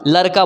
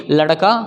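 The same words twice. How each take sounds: First: लड़का mispronounced as "larka"; plain र for ड़. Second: लड़का as "laṛka", retroflex flap, low; flapped ड़. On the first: Teacher tests learners with the mistake, लड़का as "larka". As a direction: say लड़का with a simple r, no flap. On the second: Teacher models लड़का for learners, flapped ṛ. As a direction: flick the tongue on the ड़ of लड़का. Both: Shown as a demonstration. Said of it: "लड़का बोला क्या?".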